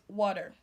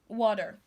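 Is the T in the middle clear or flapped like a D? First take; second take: flapped; flapped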